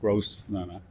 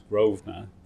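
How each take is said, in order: First: The s is sounded, like Gros-venor. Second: The s is silent, like Grove-ner. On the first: The speaker calls it wrong. "not Grosvenor" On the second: The speaker calls it right. "the pronunciation is Grosvenor"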